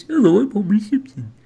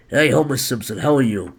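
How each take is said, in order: First: High, loud goofy cartoon voice; Homer Simpson. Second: Mock gruff chain smoker; Homer Simpson. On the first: Host showing how Homer really sounds, high cartoon voice. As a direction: pitch it up into a silly cartoon character. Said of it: "but he sounds like this". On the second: Host guessing at Homer Simpson's voice, mock gruff. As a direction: lightly put on a smoker's gruff voice. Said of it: "he's a gruff chain smoker".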